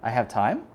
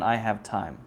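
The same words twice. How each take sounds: First: The voice rises at the end. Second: The voice falls at the end. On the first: The speaker is surprised to have time. "The question, using intonation, means I'm surprised that I do" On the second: It is a plain statement. "the statement"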